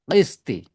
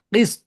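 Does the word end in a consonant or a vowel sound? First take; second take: vowel; consonant. First: The word ends with an added i vowel. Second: The word ends on the consonant t. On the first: The reader continues into the next words. "Kalau kita wasol, qisti ya" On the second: The reader stops after this word. "kalau kita wakaf"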